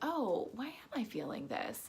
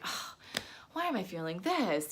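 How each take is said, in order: First: It sounds open and gently curious. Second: It sounds annoyed and judgmental.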